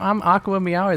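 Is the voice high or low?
high. It is said in a normal, higher voice. This is everyday talking. "You have like a normal high voice"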